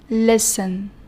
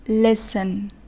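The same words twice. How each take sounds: First: The t sound is silent. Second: The t sound is silent.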